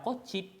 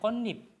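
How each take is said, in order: First: The middle consonant is a 'ch' sound. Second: The middle consonant is an 'n' sound. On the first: The speaker calls it wrong. "bukan dibaca kocip" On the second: The speaker calls it right. "tapi dibacanya konip"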